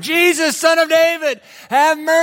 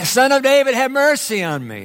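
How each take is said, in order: First: It is yelled at the loudest volume. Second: It is cried out louder than before.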